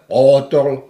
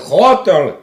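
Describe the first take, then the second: First: It begins with a voiced, soft g-like sound. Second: It begins with a voiceless, rough ch sound. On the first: The speaker calls it right. "ale hotel" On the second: The speaker calls it wrong. "Nie hotel"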